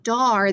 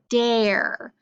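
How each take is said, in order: First: The vowel sounds like the one in car. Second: The vowel sounds like the one in air. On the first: The speaker calls it wrong. "Instead of saying dar" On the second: The speaker calls it right. "this is actually dare"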